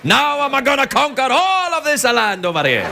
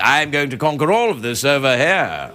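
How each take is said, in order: First: It is spoken in an Italian-style accent. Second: It is spoken in an English accent. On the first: The villain sounds less menacing. "it's not so menacing when a guy goes" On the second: The villain sounds more menacing. "if you do it in an English accent"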